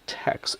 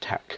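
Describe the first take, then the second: First: The word ends with a ks sound. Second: The word ends with a k sound. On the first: The speaker calls it wrong. "It's not pronounced as text" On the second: The speaker calls it right. "it is just tech"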